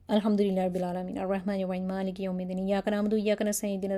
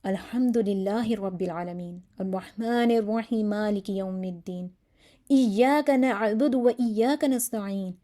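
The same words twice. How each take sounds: First: Flat, hurried Fatiha with no feeling; bored rote reading; careless recitation. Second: Slow, earnest Fatiha from the heart; heartfelt recitation. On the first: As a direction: recite it like you don't mean it. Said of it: "ایسے پڑھیں گے". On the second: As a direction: pray each word slowly, meaning it. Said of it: "یہی دعا بہت دل سے مانگ رہا ہے". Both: Shown as a demonstration.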